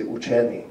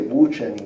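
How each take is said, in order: First: Učeni with the dialect's own stress placement. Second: Učeni said as the form to avoid; non-dialect pronunciation. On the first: Lecturer showing the dialect's stress system, učeni as the accepted form. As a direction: say učeni as the correct stress example. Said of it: "you say učeni". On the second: Lecturer contrasting stress systems for listeners, učeni as the rejected form. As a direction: say učeni as the wrong stress example. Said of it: "where you don't say učeni". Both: Shown as a demonstration.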